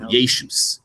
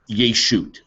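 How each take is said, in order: First: It is said in Ashkenazi pronunciation. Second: It is said in Modern Hebrew pronunciation.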